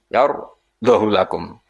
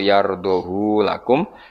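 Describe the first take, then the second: First: The vowel after h is cut short. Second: The vowel after h is drawn out long. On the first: This follows the particular reading being taught. "lan tampa isba kados kira kita" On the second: This is the usual way of reading it. "sertane isba berarti normal"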